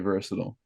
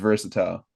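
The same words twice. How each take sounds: First: The word is said with an American pronunciation. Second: The word is said with a British pronunciation. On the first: "in America, it's supposed to be versatile" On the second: "U K, it's versatile"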